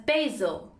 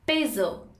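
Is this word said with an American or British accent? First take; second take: American; American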